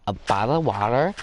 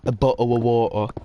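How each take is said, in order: First: Put-on teasing American accent with a rising end; mock American accent. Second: "bottle of water" with both T's dropped, louder; mock British "bottle of water", swallow each T in the throat; exaggerated T-less "bottle of water"; British glottal stops. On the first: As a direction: mimic an American saying "bottle of water". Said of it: "they say L instead of T". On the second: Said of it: "I was hearing a bottle of water".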